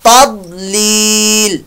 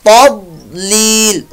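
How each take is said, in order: Both takes have the same delivery.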